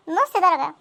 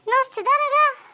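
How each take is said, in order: First: Said in the usual way. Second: "نص درجة" drawn out very slowly and a bit higher; stretched emphasis. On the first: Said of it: "repeats with stretched emphasis". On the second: Acted. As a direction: spell out "نص درجة" word by word, slowly. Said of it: "repeated slowly for emphasis". (تمطيط "نص درجة" ببطء شديد)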